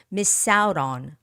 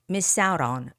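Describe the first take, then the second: Both takes have the same delivery.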